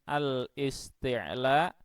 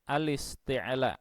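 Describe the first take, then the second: First: The article is pronounced separately, without linking. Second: The article is merged into the word, linked. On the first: The speaker calls it wrong. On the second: The speaker calls it right. "tetapi ... Jadi dibaca naqal"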